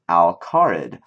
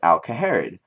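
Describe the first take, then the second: First: No extra syllable is heard in the middle. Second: An extra syllable is heard in the middle. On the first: The speaker calls it right. "but it's pronounced Alcarid" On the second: The speaker calls it wrong. "I used to call it Alcaharid, um, because that's kind of what it looks like"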